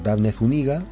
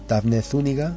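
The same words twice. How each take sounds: First: Zúñiga is stressed on its second syllable. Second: Zúñiga is stressed on its first syllable. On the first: "una llana" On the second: "una esdrújula"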